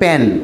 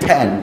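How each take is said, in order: First: The word starts with a p-like sound. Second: The word starts with an f sound. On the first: The speaker calls it wrong. "আপনি বলছেন প্যান" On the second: The speaker calls it right. "একজন native speaker সে বলছে কি ফ্যান"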